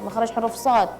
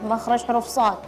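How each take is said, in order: Both takes have the same delivery.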